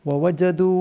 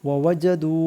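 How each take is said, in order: The two takes are said the same way.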